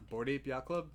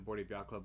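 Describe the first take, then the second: First: The phrase is said slowly. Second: The phrase is said quickly. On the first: "say that slowly" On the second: "You said it really fast"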